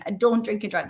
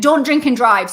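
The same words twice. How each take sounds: First: Said in the usual way. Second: Loud mock shout of a warning. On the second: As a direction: bellow it like someone yelling after you. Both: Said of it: "someone shouting".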